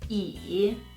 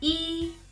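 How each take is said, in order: First: The syllable is said with the third tone. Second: The syllable is said with the first tone. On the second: "this is the first tone"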